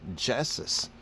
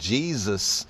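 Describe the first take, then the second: First: The middle consonant is a hissing S sound. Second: The middle consonant is a buzzing Z sound. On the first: "it should be pronounced as Jessus" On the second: "notice that a Z sound comes in"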